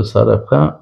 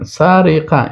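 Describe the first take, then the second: First: سرقه said correctly as sariqa, stressing the fixed vowels; the right سرقه after the slip; corrected pronunciation. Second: سرقه said wrongly as særiqæ, with i in the middle; سرقه mispronounced with a short i after the r; wrong pronunciation. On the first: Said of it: "اصلاً سرقه هست". (تلفظ درست سرقه پس از اصلاح) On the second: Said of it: "این غلط شده". (سرقه نادرست با کسره تلفظ شده) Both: Shown as a demonstration.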